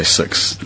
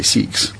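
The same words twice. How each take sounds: First: "six" slowly with the central Kiwi i, near "sux"; drawn-out Kiwi "six"; New Zealand vowel. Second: "six" with a tight ee-like i, near "seex"; Aussie "six"; Australian vowel. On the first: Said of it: "'cause we say six". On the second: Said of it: "and they say six". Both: Shown as a demonstration.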